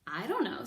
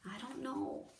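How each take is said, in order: First: Said in the usual way. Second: Much softer, trailing off; quiet. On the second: Acted. The reader softly repeats Mig's answer, quiet. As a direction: let it fade out.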